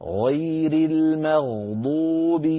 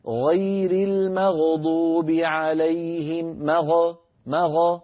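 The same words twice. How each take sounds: First: المغضوب slow with the ghain held still. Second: المغضوب slow with the ghain bounced, مغ مغ; shaky ghain. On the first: Teacher showing a steady ghain, slow chant. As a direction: hold the ghain in المغضوب without shaking. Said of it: "انظروا كيف أنا أمسك المخرج ولا أتركه يهتز". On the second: Teacher demonstrating the wrong shaking ghain. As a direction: let the ghain in المغضوب wobble. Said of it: "الخطأ أن أقول". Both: Shown as a demonstration.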